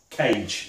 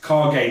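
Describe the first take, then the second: First: The name is said as one syllable, like cage. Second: The name is said with two syllables. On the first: The speaker calls it wrong. "not Cage, as I was pronouncing" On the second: The speaker calls it right. "it's pronounced Kage"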